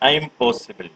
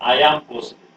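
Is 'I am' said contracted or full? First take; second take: contracted; full. First: I am is run together into one syllable. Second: I am is said as two separate words.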